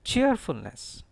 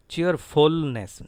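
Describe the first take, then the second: First: Cheerfulness with CHEER high, the rest falling away; corrected CHEERfulness, high first syllable; stress on CHEER. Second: Cheerfulness slow, with a loud drawn-out FUL; students' mistaken cheerFULness, slow and loud; wrong stress on FUL. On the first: Shown as a demonstration. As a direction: punch CHEER in cheerfulness, slowly. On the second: Retold or imitated. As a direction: lean heavily on FUL in cheerfulness. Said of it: "Certain students stress here, stressful".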